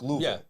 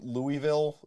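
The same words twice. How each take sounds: First: It is pronounced the way locals say it. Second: It is pronounced the way outsiders say it. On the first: "is how they pronounce it down there" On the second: "we say Louisville"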